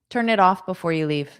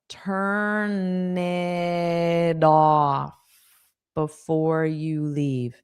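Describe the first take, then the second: First: The phrase is said quickly. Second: The phrase is said slowly. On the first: "I'll say it fast again" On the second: "Now let's say it's slow"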